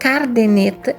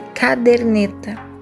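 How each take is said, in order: First: The word starts with the sounds car. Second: The word starts with the sounds cad. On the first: The speaker calls it wrong. "exemplos de cacoépia" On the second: The speaker calls it right. "em vez de"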